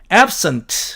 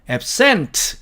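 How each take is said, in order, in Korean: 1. 강세는 첫 번째 음절에 있습니다. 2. 강세는 두 번째 음절에 있습니다. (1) "앞에다가 액센트를 주면" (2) "뒤쪽으로 액센트를 주면"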